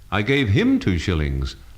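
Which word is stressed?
him. The stress falls on the word him. It went to this person, not another. "not the other fellow"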